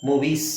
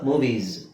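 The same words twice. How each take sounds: First: The word ends with a hissing s sound. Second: The word ends with a buzzing z sound. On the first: The speaker calls it wrong. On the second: The speaker calls it right.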